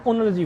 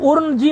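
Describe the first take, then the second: First: उनर्जी lower and softer, as un-r-ji; n before r. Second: उर्नजी with r before n; mispronounced. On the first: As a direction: lead with n, then r, in उनर्जी. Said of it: "नकार का उच्चारण पहले करना". (उनर्जी में नकार का उच्चारण पहले) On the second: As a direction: wrongly say ur-n-ji for उर्नजी. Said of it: "मत बोलना". (उर्नजी में नकार से पहले रेफ) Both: Shown as a demonstration.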